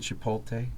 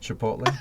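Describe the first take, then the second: First: The L comes before the T: chi-pol-te. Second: The T comes before the L: chi-pot-le. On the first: The speaker calls it wrong. "Don't say chipotle" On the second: The speaker calls it right. "It's like the P and the T are"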